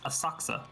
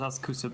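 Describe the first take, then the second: First: The middle 'ku' vowel is nearly silent. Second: The middle 'ku' vowel is fully pronounced. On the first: The speaker calls it right. "but apparently it's Asakusa" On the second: The speaker calls it wrong. "I also used to think it was pronounced Asakusa"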